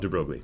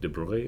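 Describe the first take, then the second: First: The name is said with an English-style pronunciation. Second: The name is said with a French-style pronunciation. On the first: This is the speaker's own everyday pronunciation. "I don't actually speak French, so we'll call it de Broglie" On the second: This is a guess at the native pronunciation. "I'm sure you're supposed to pronounce it differently, but I do not speak French, so it might be like de Broglie or something"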